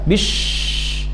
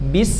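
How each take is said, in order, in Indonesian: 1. Berakhir dengan bunyi sh yang mendesis pelan. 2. Berakhir dengan bunyi s yang mendesis. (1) "jadi bukan bish" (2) "mengalirkan suara s"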